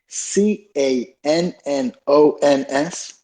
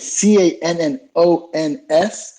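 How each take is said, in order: First: The letters are spelled out more slowly. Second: The letters are spelled at a normal pace.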